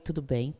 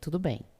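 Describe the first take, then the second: First: The voice rises at the end, as a question. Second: The voice falls at the end, as an answer.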